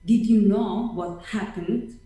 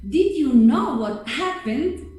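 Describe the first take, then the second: First: It is said in a grave, somber tone. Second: It is said in an excited, upbeat tone. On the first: Something bad has happened. "A bad news" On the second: Something good has happened. "A good news"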